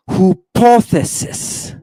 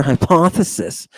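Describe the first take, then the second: First: "Hypothesis" slow and high, starting "hoo-POTH"; Greek pronunciation. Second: Said in the usual way. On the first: Shown as a demonstration. Teacher repeating Greek for students, "Hypothesis" as "hoo-POTH-esis". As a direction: draw out "Hypothesis" with a "hoo" first syllable. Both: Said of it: "That's your hypothesis".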